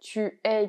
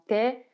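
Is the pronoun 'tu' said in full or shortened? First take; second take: full; shortened. First: Tu and es are both said fully. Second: The vowel of tu is dropped: t'es. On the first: "Le U du tu va d'ailleurs disparaître" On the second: "devient t'es"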